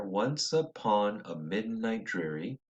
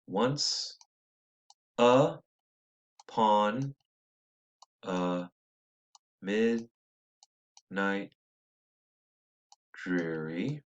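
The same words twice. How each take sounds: First: "Once upon a midnight dreary" in one soft flowing breath with a lift on "upon"; whole line read smoothly. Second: "once" "upon" "a" "midnight" "dreary" each set apart by long pauses; scanned word by word. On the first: Teacher rereading the line in one smooth pass. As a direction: let the line run together as one phrase. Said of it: "broken up into four meters right here". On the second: Teacher showing students the meter word by word. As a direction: tap out the beat one word at a time, slowly. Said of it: "we'll break it up right there". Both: Shown as a demonstration.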